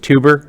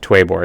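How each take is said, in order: First: The name starts with a 'too' sound. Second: The name starts with a 'twe' sound. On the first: The speaker calls it wrong. "mispronounce it as tuber" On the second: The speaker calls it right. "pronounced Twebor"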